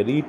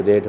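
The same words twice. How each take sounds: First: "রিট" with a long ee vowel, like "reed"; present-tense "রিট", rhyming with "need"; present-tense pronunciation. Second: "রেট" with a short e vowel, like "red"; past-tense "রেট", rhyming with "bed"; past-tense pronunciation. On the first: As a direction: say "রিট" with an ee sound. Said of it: "বানানটা একই লাগছে ঠিকই". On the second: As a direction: say "রেট" to sound like the colour red. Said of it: "যখন এর sound হবে তখন". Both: Shown as a demonstration.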